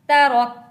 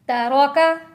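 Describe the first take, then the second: First: The word ends on a bare consonant. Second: The word ends with a final vowel sound.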